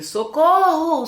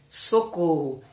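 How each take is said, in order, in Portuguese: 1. A palavra é dita em voz alta, com muita intensidade. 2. A palavra é dita com calma, em volume normal. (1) "eu aumentar a intensidade" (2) "com essa mesma palavra"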